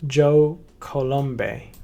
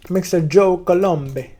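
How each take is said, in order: First: Slow, drawn-out Italian-sounding "Joe Colombe"; tentative Italian accent. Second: Higher, louder and slow hammed-up Italian "Mister Joe Colombe"; mock Italian accent. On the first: Pretend. Trying out an Italian accent on the founder's name, slow. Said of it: "I'm gonna try to make his accent". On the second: Introducing the founder in a grand playful Italian accent. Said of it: "I don't think he's Italian. I should stop that".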